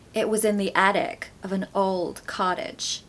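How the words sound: It is spoken in an American accent. "with an American accent"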